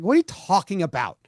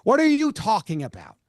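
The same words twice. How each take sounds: First: Said in the usual way. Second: "What are you talking about" pitched higher, each word pressed; emphatic incredulous repeat. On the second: Real, not acted. Answering a player who complains about fans, emphatic incredulous repeat.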